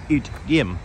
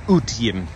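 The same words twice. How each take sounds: First: Utgym said as oot-yim with a y glide; alternate Swedish utgym. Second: Utgym said as oot-im, no y sound; Swedish utgym. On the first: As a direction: say utgym the second way, with a y. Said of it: "or an utgym". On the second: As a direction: say utgym the first way, u-t-i-m. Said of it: "this is what we call an utgym". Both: Shown as a demonstration.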